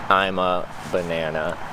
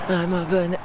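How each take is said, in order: First: It is said in a grumpy, unhappy tone. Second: It is said with cheerful enthusiasm. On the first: "And I'm not happy about it" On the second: "you want me to say that with enthusiasm"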